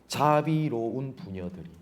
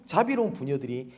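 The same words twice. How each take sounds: First: Slow, drawn-out mock reverence; sarcastic. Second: Said in the usual way. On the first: Preacher repeats God's ironic words to the congregation, sarcastic. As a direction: linger on the words with understated irony. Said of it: "하나님께서 비꼬시는 겁니다". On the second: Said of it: "내 백성이 멸망할 때에".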